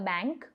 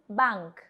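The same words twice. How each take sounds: First: The word is said with an English pronunciation. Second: The word is said with a German pronunciation. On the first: "very similar to English, the bank" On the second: "but the pronunciation is different"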